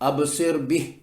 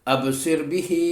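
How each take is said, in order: First: The last word ends without its final vowel. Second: The last word ends with a long final vowel. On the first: The reciter stops at this word. "अगर यहाँ रुक गए तो ये खड़ी जेर जो हा के नीचे है ये जज़म में बदल गई" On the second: The reciter continues into the next words. "मिलाकर पढ़ें तो"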